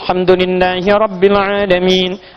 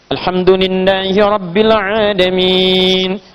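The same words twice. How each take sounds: First: Long vowels are held briefly, recited fast. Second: Long vowels are held moderately, medium pace.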